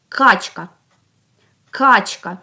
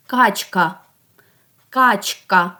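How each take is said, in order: First: "Качка" with a loud, hard opening К; first sound stressed. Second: "Качка" with the final А full and clear; last sound stressed. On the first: Teacher asks for the very first sound, opening К in "Качка" punched. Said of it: "ну найперший звук". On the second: Teacher asks for the last sound, final А in "Качка" emphasized. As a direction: lean on the closing А of "Качка". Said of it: "А останній". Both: Shown as a demonstration.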